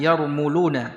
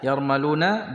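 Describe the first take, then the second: First: The second vowel is a 'u' sound. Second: The second vowel is an 'a' sound. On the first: "dibaca dengan uh, dhammah ya" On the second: "bisa dibaca yarmaluna ya, tapi di sini kita dhabit ya"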